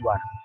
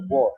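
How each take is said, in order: First: The vowel sounds like 'ah'. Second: The vowel sounds like 'aw'. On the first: The speaker calls it wrong. "bukan war" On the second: The speaker calls it right. "Dibaca wo"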